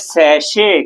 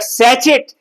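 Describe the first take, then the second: First: It has an 'sh' sound and no final 't'. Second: It has a 'ch' sound and ends in 't'. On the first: The speaker calls it right. "ये सैचेट नहीं है, ये है सैशे" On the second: The speaker calls it wrong. "जिसने कभी phonetic transcription नहीं पढ़ा... बोलेगा सैचेट"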